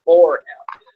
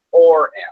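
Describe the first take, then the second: First: "for him" with FOR raised and loud; stress on FOR. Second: FOR him, FOR hit louder; stress on FOR. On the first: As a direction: hit for, say it over "to". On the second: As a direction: punch the word for in "for him". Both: Shown as a demonstration. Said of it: "Not to him".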